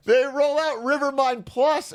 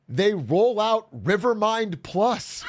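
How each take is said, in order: First: High, slow, drawn-out announcer hype; mock product hype. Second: Mock hype. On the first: Streamer to chat, hamming up the upgrade reveal. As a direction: sell the upgrade like a cheesy ad reveal. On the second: Hyping the upgrade reveal.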